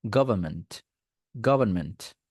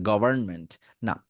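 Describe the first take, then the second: First: গভর্নমেন্ট as go-ban-ment, r dropped; government, no r. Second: গভর্নমেন্ট with the r sounded, gover-n, the mistake; wrong govern-ment. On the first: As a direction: drop the r in গভর্নমেন্ট. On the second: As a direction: say গভর্নমেন্ট with full r to show wrong. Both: Shown as a demonstration. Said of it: "গভর্ন বলা দরকার নেই".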